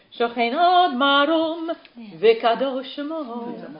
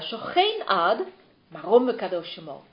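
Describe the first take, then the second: First: The pause comes right after the word marom. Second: The pause comes right after the word ad. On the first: The one dwelling on high is holy in name. The speaker calls it wrong. "Heel vaak hoor ik Gazanim" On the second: Exalted and holy is the name of the eternal dweller. The speaker calls it right. "Let op de komma"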